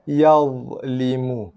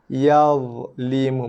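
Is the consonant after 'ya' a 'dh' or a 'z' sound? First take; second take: dh; dh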